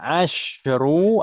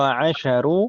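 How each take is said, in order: First: The sh sound has no vowel after it. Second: The sh sound is followed by an a vowel. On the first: "shinnya itu mau sukun" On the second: "atau mau fathah"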